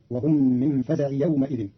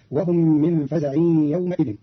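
First: "فزع" ending in plain i, no n; without tanwin. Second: Said in the usual way. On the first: Shown as a demonstration. Teacher shows Qalun's reading, "فزع" without tanwin. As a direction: run "فزع" straight into "يومئذ" as faza'i. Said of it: "بدون تنوين فتصير". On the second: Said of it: "قرأ قالون كلمة فزع".

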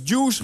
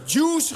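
First: Licht hoger geroepen "Juice". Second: Hoog, luider geroepen "Juice". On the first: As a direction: roep "Juice" naar de tegenstander. (tegenspeler roept de stand: licht geroepen) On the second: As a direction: roep het hoog over het net. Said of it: "riep de jongen nog een keer". (tegenspeler roept opnieuw over het net: hoog en luid geroepen) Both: Retold or imitated.

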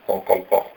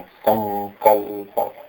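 First: Said in the usual way. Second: संकल्प slowly with सं and कल् weighted; stress on संकल्प. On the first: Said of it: "ऐसे नहीं". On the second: Shown as a demonstration. Teacher correcting संकल्प. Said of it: "ऐसे नहीं, संकल्प".

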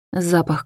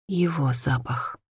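First: Said in the usual way. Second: Slow soft whisper on "Его запах". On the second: A narrator's reading. Hanna recalling the man's scent, whispered slowly. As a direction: breathe "Его запах" like a secret. Narrator dwells on his scent.

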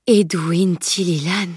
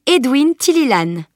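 First: Slow, syllable by syllable; slow articulation. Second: Higher, emphatic announcement of a name; declaring. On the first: Stunned knight repeats the famous name, slow articulation. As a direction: say "Edwin Tililan" slowly, taking in each sound. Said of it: "reprit-il en articulant lentement". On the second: Girl reveals the stranger's name to knight, declaring. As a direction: announce the name with pride of place. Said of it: "déclara-t-elle". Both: A narrator's reading.

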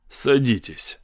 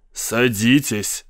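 First: Said in the usual way. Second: Slow, drawn-out echo. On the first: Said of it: "сказал капитан". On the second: A narrator's reading. Commissioner repeating the captain's invitation, echoing slowly. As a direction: stretch the word like an echo. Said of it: "повторил как эхо комиссар".

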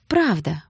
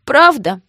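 First: Smiling reassurance. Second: High, loud, hopeful question; tearful hope. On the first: Sister reassures tearful Гоша, calm and smiling. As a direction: confirm it with a smile. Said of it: "улыбнулась она". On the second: Crying Гоша asks sister to confirm, high and hopeful. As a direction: ask as if longing to believe it. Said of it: "поднял на неё заплаканные глаза". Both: A narrator's reading.

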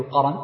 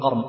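First: قرن with an 'a' after the ra, "qaran"; voweled middle ra. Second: قرن with no vowel after the ra, "qarn"; silent middle ra. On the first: Teacher showing students the variant reading, voweled ra in قرن. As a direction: say قرن in two open syllables, qa-ran. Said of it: "وبعضهم يحركها فيقول". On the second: Teacher showing students the other reading, vowelless ra in قرن. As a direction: say قرن as one closed syllable, qarn. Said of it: "وبعضهم يسكن الراء". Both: Shown as a demonstration.

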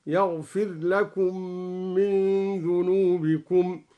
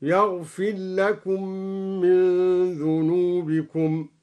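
First: يغفر لكم run together as yaghfil-lakum, slow; ra merged into lam. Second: يغفر with a clear ra before لكم, slow; ra pronounced clearly. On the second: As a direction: sound the ra of يغفر fully, yaghfir lakum. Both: Shown as a demonstration. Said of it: "بإدغام الراء وإظهارها".

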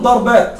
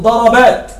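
First: ضربات said ḍarbāt, the r closed; wrong plural. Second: ضربات said ḍarabāt, open a after the r; correct plural. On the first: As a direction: say ضربات as dar-bāt, with no vowel after the r, as the wrong form. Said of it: "خطأ". (النطق الخاطئ: ضَرْبات بتسكين الراء) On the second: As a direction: say ضربات as da-ra-bāt with a clear middle a. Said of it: "لا أقول ضربات". (النطق الصحيح: ضَرَبات بفتح الراء) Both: Shown as a demonstration.

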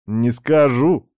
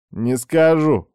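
First: Slow, drawn-out refusal; slow teasing. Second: Smug, teasing refusal; smirking. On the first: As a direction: stretch each word lazily. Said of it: "покачал он головой". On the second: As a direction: tease her with a smirk. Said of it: "усмехнулся этот гад". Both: Acted.

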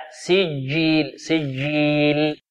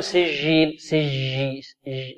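First: سجيل with a stopped dj; correct hard jeem. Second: سجيل with a soft zh sound for jeem; wrong soft jeem. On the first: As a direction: stretch سجيل slowly with a firm jeem. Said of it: "الجيم العربية شديدة". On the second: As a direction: say سجيل with a French j. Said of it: "لا، خطأ". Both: Shown as a demonstration.

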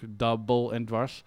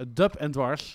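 First: "Double" said in English as "dabbel", two syllables; title corrected. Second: "Dub" said short as one syllable, like Dutch "dup"; title misread. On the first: DJ corrects the record title, English pronunciation. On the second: DJ stumbles over the record title, clipped misread. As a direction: clip "Dub en Dwars" into a quick misread "dup". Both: Real, not acted. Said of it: "natuurlijk Double en Dwars".

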